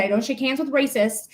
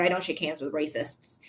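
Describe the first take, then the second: First: Said in the usual way. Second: Much softer, lower, cold retort; cold quiet refusal. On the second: Retold or imitated. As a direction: say it low and cold, shutting her down. Retold refusing racist's handshake.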